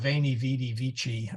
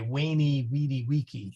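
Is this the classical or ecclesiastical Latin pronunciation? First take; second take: ecclesiastical; classical. First: It uses the ecclesiastical, Italian-like Latin pronunciation. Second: It uses the classical Latin pronunciation. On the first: "you probably heard it as" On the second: "in classical Latin, you would say"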